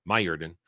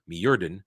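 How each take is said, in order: First: Mjordan said as MY-er-dun, lower; corrected name. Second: Mjordan said as mee-ER-dun; a tentative first reading of Mjordan; first try at the name. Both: Shown as a demonstration.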